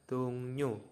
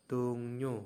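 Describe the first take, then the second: Both takes have the same delivery.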